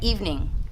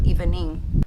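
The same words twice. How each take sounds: First: It is said with a standard English pronunciation. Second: It is said with an Indonesian-accented pronunciation. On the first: "Harusnya evening" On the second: "tapi orang Indonesia bilang evening"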